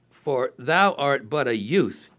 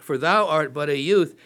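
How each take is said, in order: First: Slow, weighty reading of the verse; slow emphatic reading. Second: Said in the usual way. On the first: Shown as a demonstration. Preacher stressing the king's doubt, slowly and deliberately. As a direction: lean on each word of "For thou art but a youth", slowly. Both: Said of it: "Then once again".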